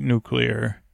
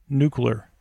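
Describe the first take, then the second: First: Said in the usual way. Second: Nuclear as "NOO-kyuh-ler"; mispronounced nuclear. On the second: Acted. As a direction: say Nuclear as "nucular", no "lee-er" ending. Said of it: "I didn't know you pronounced it that way".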